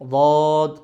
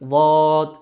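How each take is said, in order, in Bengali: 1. এটা একটা ভারী, মোটা d-এর মতো ধ্বনি। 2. এটা একটা ভারী, মোটা d-এর মতো ধ্বনি।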